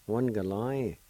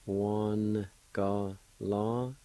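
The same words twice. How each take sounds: First: Said in the usual way. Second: One galai stretched out very slowly; teacher modelling slowly for learners; very slow drawn-out. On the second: Shown as a demonstration. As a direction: drag out One galai carefully. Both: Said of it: "It's pronounced like this".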